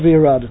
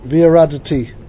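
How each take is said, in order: First: The word ends on the final 't' sound. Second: The word ends with an extra 'ee' vowel. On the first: The speaker calls it right. "We pronounce it "V'yaradit."" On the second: The speaker calls it wrong. "But we don't pronounce it "V'yaraditi," even though that's the way it's spelled"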